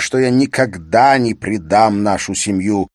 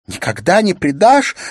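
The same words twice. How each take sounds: First: Firm, louder assurance to a wife; insistent husband. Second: High, loud outcry of a wife; tearful shout. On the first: Acted. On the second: A narrator's reading. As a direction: throw it back as a shouted, hurt question. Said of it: "закричала Улла со всхлипыванием".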